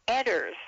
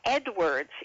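First: The name is said without a w sound. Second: The name is said with a w sound. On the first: This is how the man himself said his name. "but he pronounced it Edders" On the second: This is how the name is spelled. "His name was Edwards"

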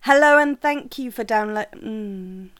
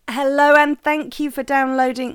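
First: It is said at a softer volume. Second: It is said loudly, almost shouted. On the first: The speaker calls it right. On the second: The speaker calls it wrong.

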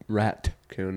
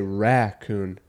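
First: The word is said with a t sound. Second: The word is said without a t sound. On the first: "I don't put a T at it" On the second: "I say raccoon"

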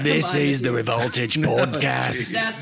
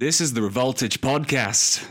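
First: It is said in an Australian accent. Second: It is said in a plain, ordinary voice.

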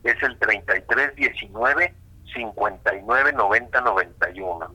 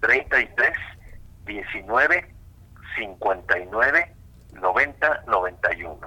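First: The number is said at normal speed. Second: The number is said more slowly.

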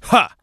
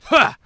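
First: A flat grunt made without any physical movement. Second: A forceful grunt made while actually throwing a punch.

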